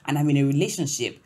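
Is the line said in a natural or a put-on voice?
natural. It is said in a natural, ordinary voice.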